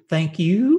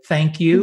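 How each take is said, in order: First: The vowel in 'you' is drawn out. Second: The vowel in 'you' is short.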